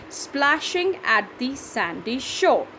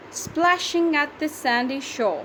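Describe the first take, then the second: First: "Splashing at the sandy shore" in slow, even beats; syllable by syllable. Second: Said in the usual way. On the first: Shown as a demonstration. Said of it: "That's seven". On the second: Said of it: "how do we count the syllables".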